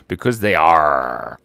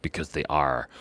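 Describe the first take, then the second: First: Low, slow, loud-ended pirate growl on ARE; pirate "arrr". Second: Low, soft echo of the punchline; quiet repeat. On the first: Acted. Giving the pirate joke's punchline, drawn-out pirate voice. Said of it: "Why are pirates called pirates?". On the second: Real, not acted. Savouring the pirate joke afterwards, quiet and low. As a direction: say it softly and low to yourself.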